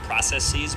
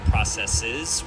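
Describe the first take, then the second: First: The last syllable has a long 'ee' sound. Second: The last syllable has a short 'i' sound. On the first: The speaker calls it wrong. "isn't pronounced processes ... adding that double E sound" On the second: The speaker calls it right. "but rather processes"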